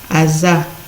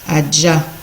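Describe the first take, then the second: First: The middle consonant is a z sound. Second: The middle consonant is a j sound. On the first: This is how one group of speakers says it. "peut aussi prendre le son z chez les Tchours" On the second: This is the usual way of saying it. "prend toujours le son je du français"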